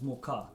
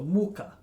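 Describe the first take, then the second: First: The stress is on the second syllable. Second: The stress is on the first syllable. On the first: It means flour. The speaker calls it right. "with the, a stress on the a" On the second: It means something other than flour. The speaker calls it wrong. "with the stress on the u"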